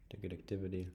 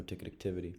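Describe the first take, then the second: First: "Ticket activity" whispered under the breath; whispering. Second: Said in the usual way. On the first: Real, not acted. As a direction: murmur "Ticket activity" to yourself. Repeats the phrase to self.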